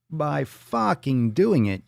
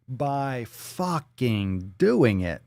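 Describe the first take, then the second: First: Higher, louder, slow and punched; emphatic answer. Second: Very slow, drawn out; slow deadpan. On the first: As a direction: hammer the answer home. Second take, louder. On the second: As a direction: spell it out word by word. First take, very slow. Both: Acted.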